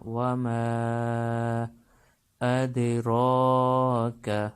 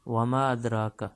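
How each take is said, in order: First: The vowel after 'm' is held long. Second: The vowel after 'm' is short. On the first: The speaker calls it right. "मीम को लंबा करना है" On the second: The speaker calls it wrong. "लंबा नहीं करते और सिर्फ पढ़ते हैं"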